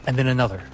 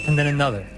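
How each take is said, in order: Both takes have the same delivery.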